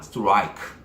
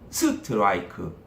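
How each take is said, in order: First: The stress falls on the ra vowel. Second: The stress falls on the initial s sound. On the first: The speaker calls it right. "백 퍼센트 라가 크게 들려야 되겠죠" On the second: The speaker calls it wrong. "스에 올라가서"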